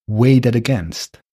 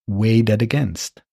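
The two takes are said the same way.

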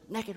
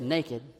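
First: The word is said with Southern pronunciation. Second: The word is said with standard pronunciation. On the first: "we Southerners say things funny" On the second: "You don't say it naked"

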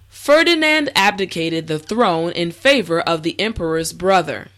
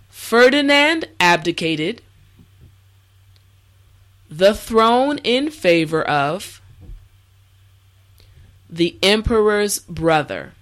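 First: The sentence is said at normal speed. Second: The sentence is said slowly. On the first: "the last time at a regular pace" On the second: "this time repeat after me"

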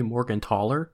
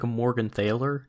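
First: The middle consonant is a plain t sound. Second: The middle consonant is a th sound. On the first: "like the TH could just be a T sound sort of a thing instead of a the sound" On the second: "if it's like Americanized"

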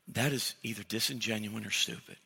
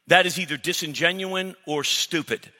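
First: It is said in a polite, softened tone. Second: It is said bluntly and harshly.

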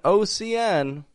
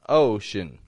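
First: The last syllable has a full vowel. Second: The last syllable has a reduced schwa vowel. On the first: The speaker calls it wrong. "Instead of an ocean" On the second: The speaker calls it right.

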